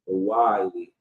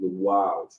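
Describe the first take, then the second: First: The word ends with an 'ee' sound. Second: The word ends with a 'z' sound. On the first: This is a common mispronunciation. The speaker calls it wrong. "how some people pronounce it like that" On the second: This is the proper pronunciation. The speaker calls it right. "but it's really the wiles"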